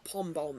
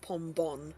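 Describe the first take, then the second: First: The second syllable ends with an m sound. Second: The second syllable ends with an n sound. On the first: The speaker calls it wrong. "It's not pom bomb" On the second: The speaker calls it right. "It's an N"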